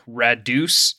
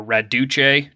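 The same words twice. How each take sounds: First: "Radus" as ra-DOOS, two syllables; first pronunciation. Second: "Raduce" as ra-DOO-chay, three syllables; alternate pronunciation. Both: Shown as a demonstration. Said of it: "depending on how you want to pronounce it".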